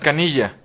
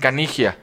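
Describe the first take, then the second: First: It is said the speaker's own way, like Canilla. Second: It is said the Argentine way, like Canigia.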